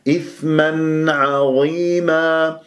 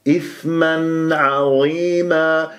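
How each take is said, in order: Both takes have the same delivery.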